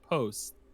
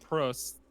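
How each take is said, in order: First: The R sound is barely pronounced. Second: The R sound is clearly pronounced. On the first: "with without less emphasis on the R" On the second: "I've heard it as Prost, like Prost"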